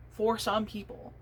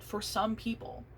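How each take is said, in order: First: "For some people" slowed and leaned on; stress on For some people. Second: Said in the usual way. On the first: Shown as a demonstration. Repeating the point to doubters, slow and weighted. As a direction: drag out "For some people" to underline it.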